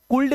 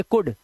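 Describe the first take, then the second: First: कुल्ड with the l sounded; wrong pronunciation. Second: कुड with silent l; correct pronunciation. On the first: Teacher warning against misreading, कुल्ड with l. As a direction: put an audible l before the d in कुल्ड. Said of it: "नहीं पढ़ते हैं". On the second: Teacher showing l before d, कुड without l. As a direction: go from the short u straight to d in कुड. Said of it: "यहाँ पर पढ़ेंगे कुड". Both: Shown as a demonstration.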